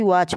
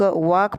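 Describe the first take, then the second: First: "वॉच" ending in a ch sound; ch reading. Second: "वॉक" ending in a hard k; wrong k reading. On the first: Teacher asking how students read it, "वॉच" with ch. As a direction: say "वॉच" with "च" at the end. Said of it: "वॉच पढ़ते हैं". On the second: Teacher asking how students read it, "वॉक" with k. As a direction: say "वॉक" with "क" in place of ch. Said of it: "वॉक पढ़ते हो कि वॉच पढ़ते हो?". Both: Shown as a demonstration.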